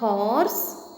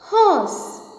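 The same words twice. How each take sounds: First: The R sound is pronounced in the word. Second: The R sound is left silent in the word. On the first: The speaker calls it wrong. "It is not horse" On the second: The speaker calls it right. "R remains silent here"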